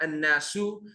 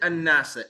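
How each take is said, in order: First: The word ends in a u vowel. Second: The word ends in an a vowel. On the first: The speaker calls it wrong. "It's not an-nasu" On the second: The speaker calls it right. "Why is it an-nasa?"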